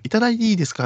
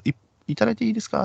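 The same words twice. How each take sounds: First: High sugary hostess plea; hostess asking. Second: High, quick sugary hostess voice; hostess asking. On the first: Hostess repeating her drink request, high and sweet. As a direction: coo it like a club girl asking. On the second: Hostess begging the customer for a drink, high and quick. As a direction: put on a cute pleading club girl. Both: Retold or imitated.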